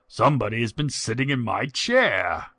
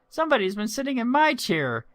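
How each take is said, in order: First: It is said in a deep, growling voice. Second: It is said in a high, piping voice.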